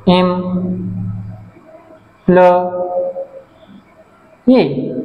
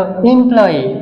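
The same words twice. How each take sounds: First: employee as এম, প্ল, য়ি with long pauses; very slow employee, each syllable alone; syllable split. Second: Said in the usual way. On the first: Shown as a demonstration. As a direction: stretch employee into three far-apart beats. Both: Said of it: "তিনটা syllable আছে".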